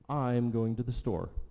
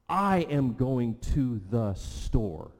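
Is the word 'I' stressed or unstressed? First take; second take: unstressed; stressed. First: The word I is unstressed. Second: The word I is stressed.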